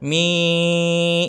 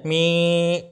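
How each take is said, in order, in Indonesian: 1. Vokal ini bergetar melalui hidung. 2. Vokal ini teredam dan terputus. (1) "Ini masuk ke hidung suaranya" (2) "Ini kalau dipencet, ... Nah, mati"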